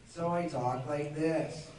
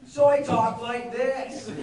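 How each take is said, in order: First: It sounds like a relaxed teenage skater. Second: It sounds like a thirty-year-old TV host.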